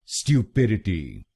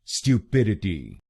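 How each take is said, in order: The two takes are said the same way.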